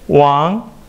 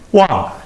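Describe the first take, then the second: First: The pitch rises from mid to high. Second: The pitch falls sharply from high to low.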